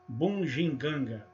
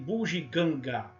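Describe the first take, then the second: First: The first two syllables are nasalized. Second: The first two syllables are oral. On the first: The speaker calls it wrong. "Ou fazendo as duas" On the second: The speaker calls it right. "as primeiras duas sílabas são orais"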